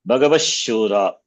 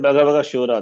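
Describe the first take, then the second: First: The visarga merges into the following sh sound. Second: The visarga is kept as a breathy h sound. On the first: "Visarga should be pronounced as that as the respective sibilant" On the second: "Even you can chant Bhagavaga Shura, nothing wrong"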